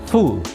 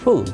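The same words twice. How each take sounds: First: The vowel is long and strongly pressed. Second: The vowel is short and not pressed. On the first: It means a stupid person. The speaker calls it wrong. "terlalu panjang mengucapkannya atau terlalu ditekan" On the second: It means filled up. The speaker calls it right. "bukan full, penuh"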